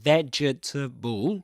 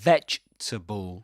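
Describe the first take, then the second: First: The word is said with four syllables. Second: The word is said with three syllables. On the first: The speaker calls it wrong. "It's not vegetable" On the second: The speaker calls it right. "but vegetable. Three syllables only"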